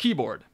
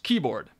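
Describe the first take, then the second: First: The word is said with two syllables. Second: The same.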